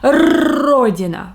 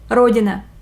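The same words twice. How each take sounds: First: The rolled R is drawn out long. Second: The rolled R is kept short. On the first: The speaker calls it wrong. "we don't say" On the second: The speaker calls it right. "let's make this sound shorter"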